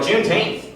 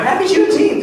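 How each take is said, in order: First: Higher, baffled echo of the word; puzzled query. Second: High, upbeat holiday greeting; cheery greeting. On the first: Cousins hearing of the holiday, puzzled query. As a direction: repeat it as if you never heard of it. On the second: Comic calling his cousins, cheery greeting. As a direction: greet them brightly, pitched way up. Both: Retold or imitated.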